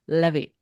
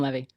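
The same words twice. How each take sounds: First: The name is said with French pronunciation. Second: The name is said with American pronunciation. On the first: "if you're actually wanting the French way, the accent aigu is on the e" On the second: "we'll just call him Levy because we're American"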